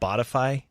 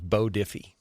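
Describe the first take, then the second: First: It begins like the word 'body'. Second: It begins like the word 'bow'. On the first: This is the actual name. The speaker calls it right. "it's called Bodify" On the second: This is a misreading of the name. The speaker calls it wrong. "I always read it as Bo Diffie"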